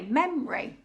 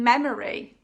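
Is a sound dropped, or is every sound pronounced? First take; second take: dropped; full. First: A sound or syllable is dropped. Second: Every syllable is pronounced in full. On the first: "you can say" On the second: "Instead of saying"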